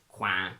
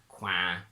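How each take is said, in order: No difference in how they are said.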